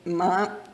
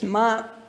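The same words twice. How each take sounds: First: The syllable is said with the second tone. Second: The syllable is said with the first tone. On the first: It means what. "The second tone" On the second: It means mother. "A word for mother is ma"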